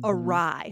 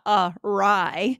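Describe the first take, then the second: First: It is said as one joined word. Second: It is said as two separate words. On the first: The speaker calls it right. "One full word, right?" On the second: The speaker calls it wrong. "It's not two words, right? It's not a rye"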